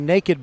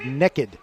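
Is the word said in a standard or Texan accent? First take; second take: standard; Texan. First: It is said in a standard accent. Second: It is said in a Texan drawl.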